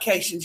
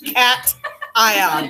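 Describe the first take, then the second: First: The word is run together as one unit. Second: The word is split into cat and ion. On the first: The speaker calls it wrong. "it's not cations. Y'all sound stupid" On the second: The speaker calls it right. "I just tried to emphasize that it's cat ion for pronunciation"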